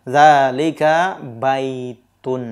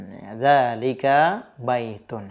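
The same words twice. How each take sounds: First: Zalika baitun said very slowly, each syllable clear; teacher modelling the right answer, very slow; slow model answer. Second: Zalika baitun repeated slowly and more softly; teacher repeating the answer softly for learners; slow quiet repeat. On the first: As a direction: spell the answer out slowly for the class. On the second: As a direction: echo the answer gently and slowly. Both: Shown as a demonstration. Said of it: "jawabannya apa yang tepat".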